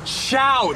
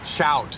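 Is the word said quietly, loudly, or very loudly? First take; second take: very loudly; quietly. First: It is said very loudly, almost shouted. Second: It is said at a fairly quiet volume.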